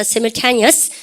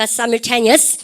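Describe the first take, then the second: First: "Simultaneous" with a long-i first syllable, "sigh-"; "Simultaneous" said as "sigh-mul-TAY-nee-us"; first pronunciation variant. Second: "simultaneous" starting with "sai", American style; "simultaneous" as American kids say it; American pronunciation. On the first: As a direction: model "Simultaneous" starting like "sigh". First of two shown pronunciations. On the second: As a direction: model American "simultaneous", "sai-mul-TAY-nee-us". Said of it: "혹은요, 미국 애들 발음". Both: Shown as a demonstration.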